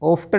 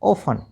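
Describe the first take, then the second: First: The t sound is pronounced. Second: The t sound is silent. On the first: The speaker calls it wrong. "ऑफ्टन नहीं" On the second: The speaker calls it right. "टी silent रखना"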